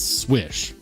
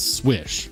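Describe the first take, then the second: First: The name is said like 'swish'. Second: The name is said like 'swish'.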